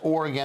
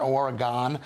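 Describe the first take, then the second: First: The word is said the accepted way. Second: The word is said a different way. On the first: The speaker calls it right. "which is pronounced Oregon" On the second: The speaker calls it wrong. "not Oregon"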